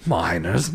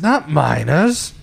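First: Low, slow "Miners," as the joke word. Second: Slow "not miners." with "not" rising; correcting the word. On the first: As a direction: say "Miners," softly and drawn out. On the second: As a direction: stretch "not miners." and lift the not. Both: Shown as a demonstration.

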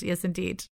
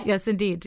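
First: Softer, solemn echo of the line; hushed echo. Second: Said in the usual way. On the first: Shown as a demonstration. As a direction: repeat it softly, like a sage. Echoing her own answer.

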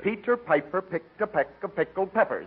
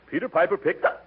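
First: Slow demo. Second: Running out of air. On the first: Shown as a demonstration. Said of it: "no, no, slower, like this". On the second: Acted. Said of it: "Say, Peter Piper ... without taking a breath".

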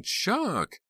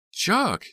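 First: Very high shriek, less loud. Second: Very high, loud shriek. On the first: Jade shrieking at the fallen Chuck, high shriek. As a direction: shriek his name once more. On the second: Jade shrieking at the fallen Chuck, loud shriek. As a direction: shriek his name. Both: A narrator's reading. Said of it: "Jade was shrieking".

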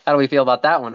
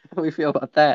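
First: Said in the usual way. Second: Lightly voiced Bogart-style gumshoe; noir detective.

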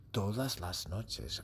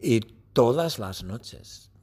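First: "todas las noches" slow and much softer; hushed. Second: Said in the usual way. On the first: Shown as a demonstration. Teacher hushes the class for the night scene, softly. Repeated phrase hushed for suspense.

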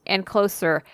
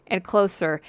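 No difference in how they are said.

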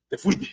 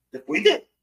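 First: Said in the usual way. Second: "Te fuiste" said much higher, with a rising end; emphatic retort. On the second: Retold or imitated. Telling off a caller who won't let it go, higher and rising. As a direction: punch "fuiste" up high and dismissive. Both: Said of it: "yo instantáneamente le digo, "Mira".

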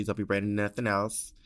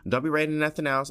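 First: Said in the usual way. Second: Louder, higher, fast insistence; emphatic repeat. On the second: Shown as a demonstration. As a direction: hammer the point home.

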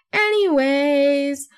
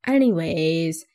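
First: Higher, long drawn-out "anyways"; exaggerated self-mockery. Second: Drawn-out, lower "anyways"; self-mocking catchword. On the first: Podcaster hamming up her own catchword, high and drawn out. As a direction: sing out the word, stretched and raised. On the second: Podcaster parodying her own catchword, drawn out and low. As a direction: stretch the word out and let it sink.

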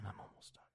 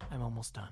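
First: Breathy whisper, no voice at all. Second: Said in the usual way. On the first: Real, not acted. Whispering his reply to his wife's text. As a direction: murmur it to yourself, barely audible.

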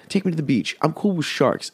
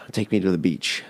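First: Higher, softer, whining repeat; whiny plea. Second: A soft sigh then a quiet, weary plea. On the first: Begging his friend to leave the desert: high mock whine. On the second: To his friend, longing for the beach: soft sighing plea. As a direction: sigh it out like you're sick of the desert. Pleading to friend about desert. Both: Retold or imitated.

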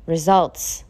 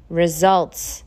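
The two takes are said the same way.

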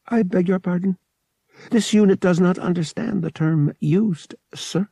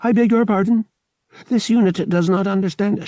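First: High, evenly measured robot voice; uncomprehending droid. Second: High, louder mechanical repetition; uncomprehending droid. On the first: Droid fails to understand the pilot, polite and mechanical. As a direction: recite it politely, like a machine. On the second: Droid answers an insult, insistent and mechanical. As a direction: recite it insistently, like a stuck robot. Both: A narrator's reading.

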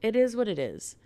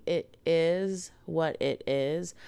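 First: Higher-pitched quick shrug, falling away; resigned self-quote. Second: Slow, deliberate restatement in usual pitch; genuine. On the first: Retold or imitated. Podcaster recalling what she told herself, resigned. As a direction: toss it off as a verdict on yourself. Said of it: "I just sat here and I went". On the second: Real, not acted. Podcaster insisting to listeners she means it, genuine. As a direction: spell it out slowly and sincerely. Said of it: "Like, genuinely".

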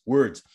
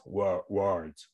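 First: Said in the usual way. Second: "words" garbled to sound like "wards", low and drawn out; messed-up word. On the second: Shown as a demonstration. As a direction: stumble on "words" with an AR vowel, playfully. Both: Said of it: "messing up the words anyway".

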